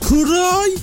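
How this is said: It is said with a Midlands accent.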